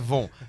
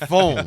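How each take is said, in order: First: The name begins with a v sound. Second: The name begins with an f sound. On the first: The speaker calls it wrong. "não é Von" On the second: The speaker calls it right. "Fon, não é Von"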